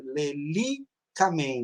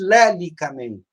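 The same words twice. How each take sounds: First: Lelicamen stressed on LI: le-LI-ca-men; stress on third-last syllable. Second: Lelicamen stressed on first syllable: LÉ-li-ca-men; stress on fourth-last syllable. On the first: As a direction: draw out the LI in "lelicamen", slowly. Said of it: "ela tem uma sílaba a mais". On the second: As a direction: wrongly hit LÉ at the start of "lelicamen". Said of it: "Não existe lelicamen". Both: Shown as a demonstration.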